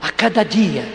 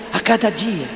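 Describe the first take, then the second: No difference in how they are said.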